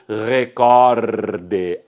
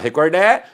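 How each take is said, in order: First: The stress is on the second syllable. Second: The stress is on the last syllable. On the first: The speaker calls it right. "Assim é que se deve pronunciar" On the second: The speaker calls it wrong. "ninguém vai falar recordé"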